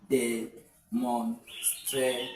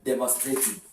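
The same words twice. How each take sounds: First: Very slow "Demonstrative" in separated syllables; drawn-out teacher breakdown of "Demonstrative" with pauses. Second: Said in the usual way. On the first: Shown as a demonstration. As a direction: break "Demonstrative" into de, mon, stra, tive. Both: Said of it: "Can I get another one".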